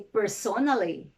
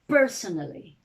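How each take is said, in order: First: The stress is on the second syllable. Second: The stress is on the first syllable. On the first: The speaker calls it wrong. "You don't say" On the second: The speaker calls it right.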